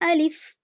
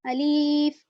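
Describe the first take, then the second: First: The word is said quickly and softly. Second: Another vowel in the word is drawn out long. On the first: The speaker calls it right. "जल्दी पढ़ें, नरमी से पढ़ें" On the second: The speaker calls it wrong. "इस तरह से भी खींच कर नहीं पढ़ते"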